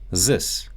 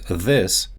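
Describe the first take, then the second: First: It begins with a z sound. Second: It begins with a voiced th sound. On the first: "a sound similar to the English z" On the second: "and this becomes zis"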